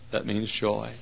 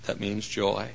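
The two takes are said the same way.

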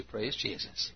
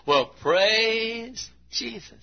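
First: Said in the usual way. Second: High, slow drawn-out praise; imitating church member. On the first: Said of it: "God needs somebody to say". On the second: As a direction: stretch it out like a happy old believer. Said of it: "So he'd say".

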